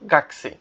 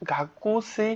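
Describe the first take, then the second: First: The vowel after the k is dropped. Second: The vowel after the k is fully pronounced. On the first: The speaker calls it right. "গাকুসি না হয়ে কি হবে, গাকসি" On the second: The speaker calls it wrong. "উচ্চারণটা কিন্তু গাকুসি হয়"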